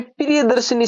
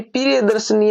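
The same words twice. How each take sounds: First: प्रिय दर्शनी meant with a short i after sh; correct pronunciation. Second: प्रिय दर्शनी with no i after sh; mistaken pronunciation. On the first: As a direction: aim for "shi" in प्रिय दर्शनी. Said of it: "शब्द बनेगा". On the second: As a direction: drop the middle i in प्रिय दर्शनी. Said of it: "है वो गलत है". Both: Shown as a demonstration.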